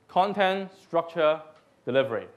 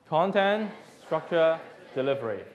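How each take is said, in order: The two takes are said the same way.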